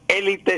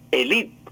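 First: The stress is on the first syllable. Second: The stress is on the second syllable. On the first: The speaker calls it wrong. "No era élite" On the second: The speaker calls it right. "sino élite, con acento en la I"

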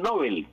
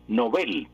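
First: The name is said the common Spanish way. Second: The name is said the Swedish way. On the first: The speaker calls it wrong. "Todo el mundo dice el premio Nobel, y Nobel es incorrecto en español" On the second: The speaker calls it right. "en sueco es Nobel, y así debe pasar al español"

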